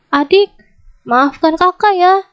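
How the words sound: It is shouted in an angry tone. The apology is not sincere. The speaker calls it wrong. "itu sambil sambil teriak-teriak, sambil marah-marah"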